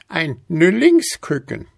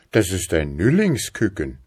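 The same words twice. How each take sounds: First: „Nüllingsküken“ hoch und laut in Altweiberstimme; „Nüllingsküken“ keck betont von der Alten; alte Frau. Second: „Nüllingsküken“ fast in Erzählstimme, fallend; „Nüllingsküken“ ruhig und schlicht gesagt; Mann. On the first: Alte nennt den Vogel. (hohes, dreistes „Nüllingsküken“) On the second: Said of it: "erwiderte der Mann". (schlichtes „Nüllingsküken“ des Mannes) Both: A narrator's reading.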